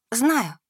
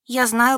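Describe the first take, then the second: First: Kindly, falling on знаю; good-natured. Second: Kindly, rising on знаю; good-natured. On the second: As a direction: gently reassure the old woman. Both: A narrator's reading. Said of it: "ответила добродушно".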